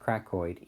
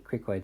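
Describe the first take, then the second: First: The first syllable sounds like 'crack'. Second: The first syllable sounds like 'cry'. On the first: "Some people pronounce it crackoid" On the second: "cricoid sounds better to me"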